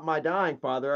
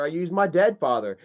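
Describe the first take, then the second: First: "dying" stressed, a little lower and softer. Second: "dead" punched, falling tune; stress on dead. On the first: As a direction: lean on the word "dying". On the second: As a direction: hit the word "dead" hard to correct the record. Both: Shown as a demonstration.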